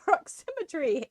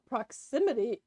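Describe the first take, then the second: First: The word is said with an R sound. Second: The word is said without an R sound. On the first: The speaker calls it wrong. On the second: The speaker calls it right.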